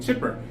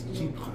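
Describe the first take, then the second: First: The word sounds like English 'chipper'. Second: The word is said in a French-style way. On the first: This is a common informal way to say it. "some people call it chipper" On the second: This is the correct way to say it. "how to pronounce it correctly"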